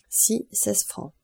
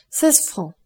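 First: Slow, softer, spelling it out as written; drawn out as if writing it down; slow dictation. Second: Said in the usual way. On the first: A narrator's reading. Son noting each fare with his pen, slow and soft. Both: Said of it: "Albert prit une plume et écrivit".

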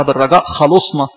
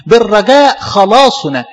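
First: خلصنا read as a verb, short vowels, no long a; wrong reading. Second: Slow, firm خلاصنا with a clearly long a in the middle; correct reading. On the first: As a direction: misread خلصنا without the long a, as 'he saved us'. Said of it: "مش زي ما البعض بيقراها". (قراءة خاطئة: خلصنا بدون مد الألف) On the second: (القراءة الصحيحة: خلاصنا بمد الألف ببطء وتأكيد) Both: Shown as a demonstration.

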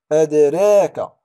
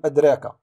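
First: "أدراك" loud and slow, with a bounced d; قلقلة صغرى. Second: Said in the usual way. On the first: Shown as a demonstration. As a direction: let the d of "أدراك" echo before the r. (قلقلة الدال في "أدراك" ببطء وقوة) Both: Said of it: "لا نقول أدراك".

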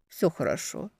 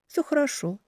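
First: Soft reassurance; hushed, gentle «Всё хорошо»; quiet. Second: Gentle echo; echoing reply. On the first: Spoken softly, then echoed. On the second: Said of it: "эхом отвечая". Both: Acted.

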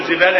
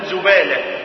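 First: زبالة said with i after the z, "zibala", as the ignorant say it; mock the careless "zibala" form of زبالة; زبالة as "zibala", the wrong kasra; wrong reading. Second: زبالة said with u after the z, "zubala"; زبالة as "zubala", the damma form; correct reading. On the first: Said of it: "ما تقولش بقى زبالة". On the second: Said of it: "لا، تقول زبالة". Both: Shown as a demonstration.

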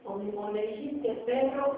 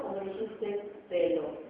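First: "perro" said clearly with a rolled rr; teacher's minimal pair demo. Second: "pelo" said slowly with a clear single l; contrast take. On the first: Teacher contrasting phonemes for students, rolled rr. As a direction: stress "perro" and trill the rr fully. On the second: Teacher contrasting phonemes for students, slow clear l. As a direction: draw out "dijiste pelo", a clean l in "pelo". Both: Shown as a demonstration. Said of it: "o es o no es".

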